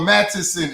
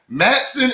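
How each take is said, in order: First: The name is said in a longer, fuller form. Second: The name is said in a short, clipped form. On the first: The speaker calls it wrong. "It's not that long" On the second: The speaker calls it right. "It's just Matson"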